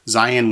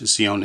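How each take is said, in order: First: The word has an English pronunciation. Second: The word has a Hebrew pronunciation. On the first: "we tend to say in English" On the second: "in Hebrew"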